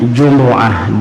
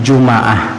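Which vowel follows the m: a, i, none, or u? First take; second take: u; a. First: A u vowel is heard after the m. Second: An a vowel is heard after the m. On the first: "boleh didammahkan bunyinya" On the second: "boleh dipathahkan bunyinya"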